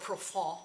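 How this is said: The word is said with a French pronunciation. "or Profond, probably, if you're French"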